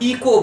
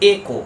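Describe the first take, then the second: First: The first vowel is an 'ee' sound. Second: The first vowel is an 'eh' sound. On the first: The speaker calls it wrong. "অনেক বড় বড় লোক উচ্চারণ করে ইকো বলে" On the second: The speaker calls it right. "But এই ওয়ার্ডটার correct উচ্চারণ হবে একো"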